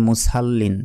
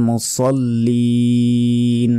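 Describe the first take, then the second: First: মুসাল্লিন with a heavy sad sound; wrong way. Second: মুসাল্লিন slow, with a light seen sound; correct way. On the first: Teacher imitates a common mispronunciation. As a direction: say মুসাল্লিন the mistaken way. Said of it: "আমরা অনেকে বলি". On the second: Teacher gives the right pronunciation. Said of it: "তাই বলতে হবে". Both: Shown as a demonstration.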